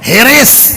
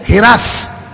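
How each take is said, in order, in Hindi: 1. दो अक्षर हैं, s से पहले i-स्वर है। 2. दो अक्षर हैं, s से पहले a-स्वर है। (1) "हम लोगों के देहातों में चले जाइए उसी जबर को जेर लग जाता है" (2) "लखनऊ चले जाइए"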